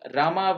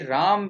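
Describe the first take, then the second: First: The name ends with an extra vowel sound. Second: The name ends on the consonant m. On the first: The speaker calls it wrong. "Absolutely wrong" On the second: The speaker calls it right. "The pronunciation should be Ram"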